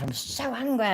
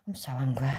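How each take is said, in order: First: Pitched up, pained; frustrated, rising outburst; angry cry. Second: Whispered under the breath; a hushed, seething whisper. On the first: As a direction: blurt it out in frustration. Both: Real, not acted.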